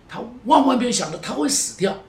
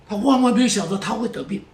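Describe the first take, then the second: First: “万万”更高更重; 更强调“万万”，推向高潮; stress on 万万. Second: 把“万万”重重压下; 加重“万万”，句尾下落; stress on 万万. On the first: (再次加重“万万”，更高更强) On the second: (重读“万万”，语气沉重) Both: Real, not acted.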